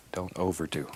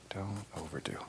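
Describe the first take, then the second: First: Said in the usual way. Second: Don't overdo, repeated in a soft whisper. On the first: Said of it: "repeated advice, first take". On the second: Shown as a demonstration. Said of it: "repeated advice, whispered take".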